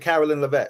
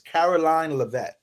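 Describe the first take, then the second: First: The first name ends with a short 'lin' sound. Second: The first name ends with a long 'line' sound. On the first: The speaker calls it wrong. "So I said Carolyn Levitt" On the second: The speaker calls it right. "her name is pronounced like Carolina"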